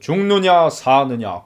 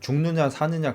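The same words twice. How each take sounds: First: It is spoken with exaggerated, theatrical stage emphasis. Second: It is spoken plainly, like everyday film acting. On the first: "연극은" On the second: "영화처럼 연기하면"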